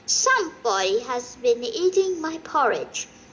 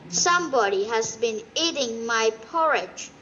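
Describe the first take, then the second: First: The voice is quiet, soft and gentle. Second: The voice is big, deep and growly. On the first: A calm, mild character is speaking. "in her quiet, gentle voice" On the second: A big, gruff character is speaking. "in his big, growly voice"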